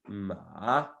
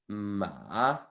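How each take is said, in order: The two takes are said the same way.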